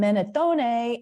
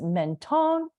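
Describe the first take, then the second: First: The name is said with an Italian pronunciation. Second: The name is said with a French pronunciation. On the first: "Menatone in Italian" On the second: "Mentone in French"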